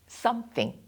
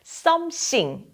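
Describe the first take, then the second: First: The th is made with the tongue between teeth. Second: The th is replaced by an s-like sound. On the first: The speaker calls it right. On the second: The speaker calls it wrong.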